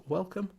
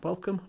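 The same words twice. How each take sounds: The two takes are said the same way.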